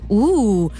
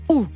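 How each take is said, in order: First: It is said in a flirty way. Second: It is said in an angry way.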